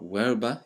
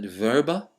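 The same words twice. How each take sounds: First: It uses the classical Latin pronunciation. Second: It uses a non-classical Latin pronunciation.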